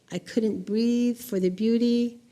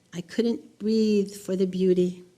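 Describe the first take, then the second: No difference in how they are said.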